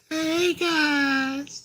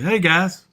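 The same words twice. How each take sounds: First: It is said in a put-on girly voice. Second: It is said in his normal voice.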